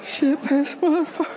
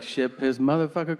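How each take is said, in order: First: Put-on very high sing-song child voice; kid repeating curses. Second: "Ship his motherfucker" in an even beat; rhythmic cursing. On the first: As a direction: parrot the swearing like a tiny kid. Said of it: "and then they'll be like". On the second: Shown as a demonstration. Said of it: "you gotta put rhythm to it".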